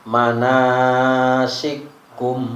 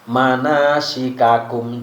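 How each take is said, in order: First: The two k sounds merge into one. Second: The two k sounds are pronounced separately.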